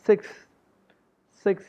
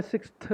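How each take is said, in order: First: सिक्स ending on ks, no th; correct pronunciation. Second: सिक्स्थ with the final TH released, siks-thuh; wrong pronunciation. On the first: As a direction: say सिक्स short, as siks. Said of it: "इसको हमने सिक्स्थ नहीं बोलना". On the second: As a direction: add an audible th after the x in सिक्स्थ. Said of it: "सिक्स्थ नहीं बोलना". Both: Shown as a demonstration.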